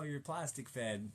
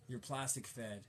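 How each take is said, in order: First: Plastic 천천히 힘주어; stress on plastic. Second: Said in the usual way. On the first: Real, not acted. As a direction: plastic 단어를 길게 강조해서. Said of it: "He's corn-fed". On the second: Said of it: "You're fed plastic".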